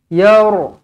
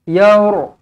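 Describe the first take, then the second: Both takes have the same delivery.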